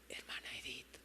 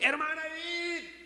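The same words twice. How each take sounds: First: It is said quietly, close to the ear. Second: It is shouted loudly.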